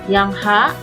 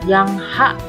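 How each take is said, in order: No difference in how they are said.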